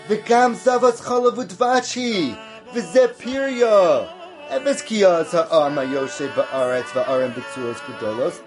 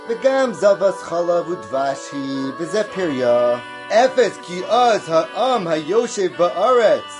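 First: The blessings part is stressed, the dangers said lightly. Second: The dangers part is stressed, the blessings said lightly.

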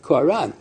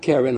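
First: The word begins with a 'ko' sound. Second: The word begins with an 'ka' sound. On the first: The word means his face was shining. The speaker calls it right. "it's Koran. His face was shining" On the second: The word means horns. The speaker calls it wrong. "It's not Karen or horn"

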